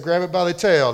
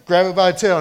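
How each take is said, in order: First: Said in the usual way. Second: Louder, bolder command; louder commanding repeat. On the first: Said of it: "He said". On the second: Acted. Preacher repeating God's command to Moses more loudly. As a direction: press the order home with more force. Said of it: "faith, right?".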